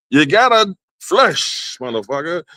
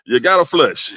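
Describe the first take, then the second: First: Drawn-out punchline. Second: Said in the usual way. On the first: Shown as a demonstration. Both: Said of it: "It ain't no avoiding this shit".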